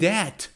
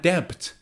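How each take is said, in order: First: The word has no B sound. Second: The word has a B sound. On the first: The speaker calls it right. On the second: The speaker calls it wrong.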